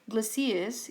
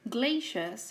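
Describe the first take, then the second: First: The word is said in a British way. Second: The word is said in an American way. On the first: "Glaciers is more of a French thing, but it is also pronounced like that in the U K" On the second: "a pronunciation that's more American"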